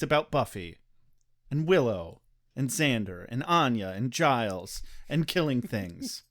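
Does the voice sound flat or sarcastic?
sarcastic. The delivery sounds sarcastic, with lively pitch. "you have that re- resting sarcastic voice"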